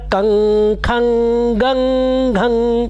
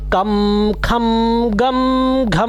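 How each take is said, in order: First: Each syllable ends with an ng sound. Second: Each syllable ends with an m sound.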